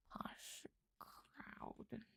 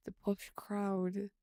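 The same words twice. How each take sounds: First: Put-on whispered posh British accent. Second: Slow, voiced posh British accent; drawn out in a posh British accent. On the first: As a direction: murmur it like a posh Brit. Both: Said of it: "Where's the accent from?".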